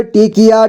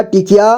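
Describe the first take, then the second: First: टिकिया as टि-कि-या; syllable by syllable. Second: Said in the usual way. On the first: Shown as a demonstration. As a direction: sound out टिकिया in three parts. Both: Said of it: "एक ही बार में पढ़ेंगे".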